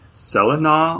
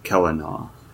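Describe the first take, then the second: First: The name begins with a soft S sound. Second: The name begins with a hard K sound. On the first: "I didn't know if it was like Celina" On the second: "or if it was like Celtic, where it's like Kelina"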